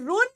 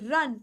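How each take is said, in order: First: The vowel is a long oo sound. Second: The vowel is a short uh sound. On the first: The speaker calls it wrong. "It is not रून" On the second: The speaker calls it right. "It is रन"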